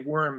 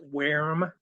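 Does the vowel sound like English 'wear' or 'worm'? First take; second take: worm; wear. First: The vowel sounds like the English word 'worm'. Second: The vowel sounds like 'wear' in 'wear 'em'. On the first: The speaker calls it wrong. "so you don't say worm" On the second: The speaker calls it right. "it's worm, like like wear 'em out"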